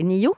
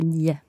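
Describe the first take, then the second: First: The word is said carefully in its full form. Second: The word is said quickly in a shortened form. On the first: "when I say it like this" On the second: "If I speak quickly, I might say"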